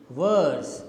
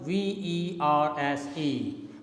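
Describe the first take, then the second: First: Said in the usual way. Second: V E R S E spelled as separate letters; teacher spells V E R S E letter by letter to the class. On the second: Shown as a demonstration. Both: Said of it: "the term V E R S E".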